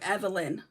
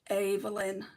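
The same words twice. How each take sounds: First: The name is said with an English pronunciation. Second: The name is said with a German pronunciation. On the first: The speaker calls it wrong. "in the U K they would pronounce it" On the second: The speaker calls it right. "in Germany it would be pronounced"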